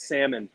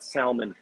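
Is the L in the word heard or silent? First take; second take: silent; heard. First: The L in the word is silent. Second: The L in the word is pronounced. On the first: The speaker calls it right. "it is silent. It's salmon" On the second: The speaker calls it wrong. "not salmon"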